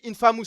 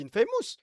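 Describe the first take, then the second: First: "Infamous" as French "in-fa-mousse"; French pronunciation. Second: "Infamous" as "in-fay-mousse"; English-style pronunciation. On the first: Streamer quotes the other person's way, French-sounding "Infamous". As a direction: give "Infamous" a plain French "a". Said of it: "Tu dis Infamous". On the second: Streamer corrects with their own way, English-style "Infamous". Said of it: "toi, je dis Infamous". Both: Shown as a demonstration.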